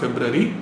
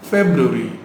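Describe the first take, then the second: First: The middle is said as 'ra-va'. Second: The middle is said as 'ru-a'. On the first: The speaker calls it wrong. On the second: The speaker calls it right.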